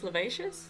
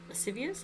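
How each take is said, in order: First: The middle is said with 'vac' sounds. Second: The middle is said with 'sciv' sounds.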